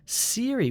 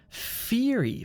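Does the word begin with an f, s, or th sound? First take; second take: s; f. First: The word begins with an s sound. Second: The word begins with an f sound. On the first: "which sounds like an S sound. That's also wrong" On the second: "That's using your top lip on your teeth"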